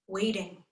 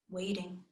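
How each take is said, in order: First: Said in the usual way. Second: Second waiting, much softer; fading repeat. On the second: A narrator's reading. Narrator echoing waiting, trailing off quietly. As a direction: let waiting, fade away.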